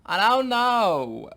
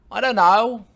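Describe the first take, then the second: First: Loud, high, long drawn-out impression; old Jewish impression. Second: Loud, high put-on British voice; impression slipping into British; accidental British accent. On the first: Impressionist retrying the old couple, drawn-out old Jewish voice. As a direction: stretch it out as a hammed-up old Jewish character. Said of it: "like an old Jewish couple". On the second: Old-couple impression gone wrong, accidental British accent. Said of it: "Oh, that's British".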